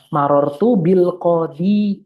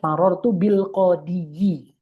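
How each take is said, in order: First: The word ends without the extra final vowel. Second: The word ends with an extra final vowel syllable. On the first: The speaker calls it right. "al qadi saja dia sukunkan" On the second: The speaker calls it wrong. "Bisa tapi sikol"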